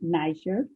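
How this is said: Niger is said the American way.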